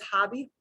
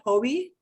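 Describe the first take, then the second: First: It is said with an English pronunciation. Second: It is said with a Spanish pronunciation. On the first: The speaker calls it wrong. "they won't pronounce it as hobby" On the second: The speaker calls it right. "they'll pronounce it hobby"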